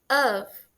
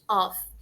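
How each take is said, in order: First: It ends softly with a V sound. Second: It ends with a strong F sound. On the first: It is the preposition meaning of. The speaker calls it right. "bem suave, com o finalzinho com som de V" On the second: It becomes a different word meaning switch off. The speaker calls it wrong. "A gente não pronuncia com o F bem forte"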